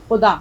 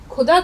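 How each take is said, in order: First: خدا with a throaty خ sound; خدا said with the rasping x; correct pronunciation. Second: خدا said as کھدا with an aspirated k; خدا with a hard kh, the wrong way; wrong pronunciation demo. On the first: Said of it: "اگر ہم خدا کو خدا کہیں گے تو معنی بدل جائیں". (خدا، خ کی صحیح آواز کے ساتھ) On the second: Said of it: "تو لفظ بالکل غلط تو ہوگا ہی". (خدا کو کھ کی آواز سے، غلط طریقے سے) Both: Shown as a demonstration.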